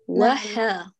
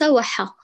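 First: The vowel after ḥa is fully opened and held. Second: The vowel after ḥa is clipped, leaning toward silence. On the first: The speaker calls it right. "فتحة حا افتحي" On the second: The speaker calls it wrong. "ليس وحا، اتكي أعلى الحاء فمزج فتحها بالسكون"

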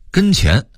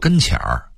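First: It is read with the standard pronunciation. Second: It is read with the Beijing tone change.

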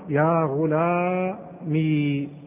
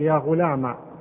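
First: The word ends in a long ee sound. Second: The word ends in a short a sound. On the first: "أثبتت الياء ساكنة" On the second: "تحذف الياء وتضع بدل منها فتحة"

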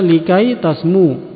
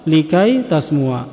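First: The last word ends without a final 'a' vowel. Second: The last word ends with a final 'a' vowel. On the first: The speaker calls it wrong. "tidak dibaca likai tasmu" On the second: The speaker calls it right. "tapi dibaca likai tasmua, ya, tapi difatahkan"

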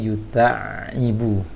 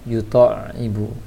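First: The vowel after t stays open and unrounded. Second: The vowel after t is rounded, near 'to'. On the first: The speaker calls it right. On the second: The speaker calls it wrong. "seperti yang tadi yang dibaca oleh saudara kita"

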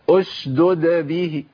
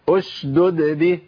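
No difference in how they are said.

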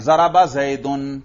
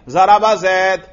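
First: The last word ends with a pronounced case ending. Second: The last word stops without any case ending. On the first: The word actually carries its case marking. "آپ نے زید کو باقاعدہ اعراب دے دیے" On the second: The word only has the capacity for case marking. "اس زید پر آپ اعراب نہ پڑھیں، ذرا وقف کر دیں"

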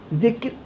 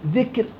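Both takes have the same delivery.

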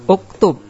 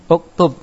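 The two takes are said the same way.

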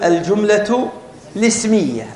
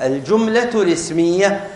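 Both takes have the same delivery.

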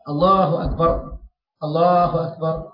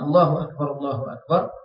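First: The two phrases are separated by a pause. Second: The two phrases are joined without a pause. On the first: The speaker calls it wrong. "kalau kita pisahkan, kita satukannya, kita kata kurang baik" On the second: The speaker calls it right. "Satu rangkaian ini sebaiknya tak dipisahkan"

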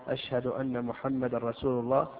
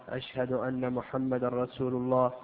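The two takes are said the same way.

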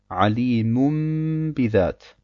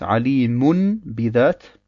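First: An m sound is said before the b. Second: An n sound is said before the b. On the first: This is how it is actually recited. "wir wandeln das nun in ein Mim um und sagen" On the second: This is the original written form. "Ursprünglich heißt es"

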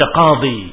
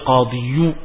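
First: The word ends in a plain long i. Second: The word ends in a y sound plus u. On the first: This form is light and used in practice. The speaker calls it right. "Maka dibaca qadhi" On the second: This form is heavy on the tongue. The speaker calls it wrong. "qadhiyu, berat"

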